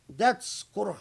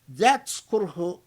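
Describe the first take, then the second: First: Said in the usual way. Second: That's kurh punched louder, stress landing on That's; emphatic first take. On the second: Shown as a demonstration. Driving the point home to the audience, That's kurh stressed loud. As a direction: hit That's kurh hard the first time.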